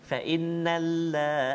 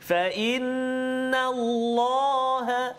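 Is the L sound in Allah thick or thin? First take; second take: thin; thick. First: The L in Allah is light and thin. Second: The L in Allah is heavy and thick. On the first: The speaker calls it wrong. "Allah nipis" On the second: The speaker calls it right.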